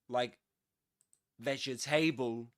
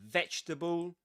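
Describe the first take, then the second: First: The ending is said as a full 'able'. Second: The ending is reduced to a short 'bull'. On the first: The speaker calls it wrong. "So you don't say um, able, like vegetable. You don't say that" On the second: The speaker calls it right. "This is a bull"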